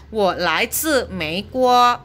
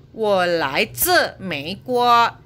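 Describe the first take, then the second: No difference in how they are said.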